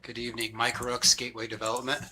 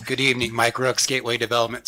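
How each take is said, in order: First: Hoarse, barely-there voice; raspy whisper. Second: Raspy voice pushed louder; hoarse voice, louder. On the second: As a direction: push past the lost voice. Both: Real, not acted. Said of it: "Sorry, I have no voice".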